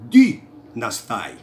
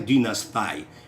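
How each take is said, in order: First: The stress is on the second-to-last syllable. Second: The stress is on the last syllable. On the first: The speaker calls it right. "tem a tônica para o paroxítona" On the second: The speaker calls it wrong. "numa tônica oxítona"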